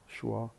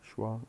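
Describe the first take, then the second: No difference in how they are said.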